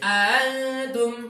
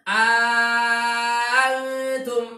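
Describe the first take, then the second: First: The second hamza is softened, halfway to a vowel. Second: The second hamza becomes a long, drawn-out vowel. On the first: "Yang kedua tasil" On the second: "Pertama hamzah kedua diibdal jadi mad lazim"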